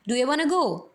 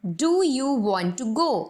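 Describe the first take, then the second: First: "Do you wanna go?" quick, with "you" reduced to "ya"; American reduction. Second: Very slow, "want to" said in full; full careful form. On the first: Teacher showing how Americans say it. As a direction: run "wanna" together fast. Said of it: "American pronunciation में बोलूँ तो वो बोलेंगे". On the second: Teacher showing the full form before the American one. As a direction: spell out "Do you want to go?" word by word. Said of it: "अगर मैं American English में बोलूँ". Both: Shown as a demonstration.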